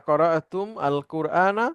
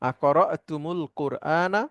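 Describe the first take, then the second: First: The m ends bare, words kept apart. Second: An added u links the m onward.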